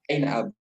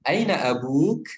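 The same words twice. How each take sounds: First: "Aina abuk?" said flat, no rise at the end; flat statement tune. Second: "Aina abuk?" with pitch rising at the end; rising question tune. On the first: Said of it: "Kalau misalnya kita datar". ("Aina abuk?" dengan nada datar) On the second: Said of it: "Contohnya kayak". (nada tanya naik di akhir "Aina abuk?") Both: Shown as a demonstration.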